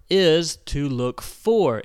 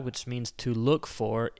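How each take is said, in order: First: "for" punched, louder and slower; stress on for. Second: Said in the usual way. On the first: Shown as a demonstration. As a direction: lean hard on "for" in "is to look for".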